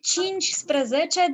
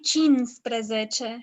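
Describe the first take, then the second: First: Every syllable of the word is pronounced. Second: One repeated syllable of the word is dropped. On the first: "Like cincisprezece" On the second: "they will actually say cinsprezece"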